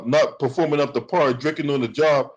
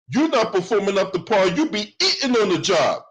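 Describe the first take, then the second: First: Said in the usual way. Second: Higher, punchier turnaround; pitched-up accusing comeback; louder retort. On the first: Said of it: "quoting her accusation". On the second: Real, not acted. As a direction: throw her words back at her. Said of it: "turning it back on her".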